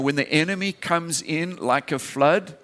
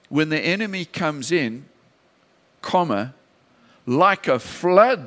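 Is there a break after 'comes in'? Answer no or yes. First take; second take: no; yes. First: The phrase runs on without a break after 'comes in'. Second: There is a break after 'comes in'. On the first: The enemy is what comes like a flood. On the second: The response to the enemy is what comes like a flood.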